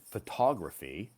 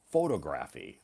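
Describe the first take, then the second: First: Photography as fuh-TOG-ruh-fee, stress on TOG; teacher's photography, pho-TOG-ra-phy; correct photography. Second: Photography as FOH-tuh-gra-fee, stress on FOH; photography with a long first o, stressed first; learner's photography, first syllable stressed; wrong photography. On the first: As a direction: model photography with the stress on the second syllable. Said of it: "I pronounced it". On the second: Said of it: "You pronounced it". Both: Shown as a demonstration.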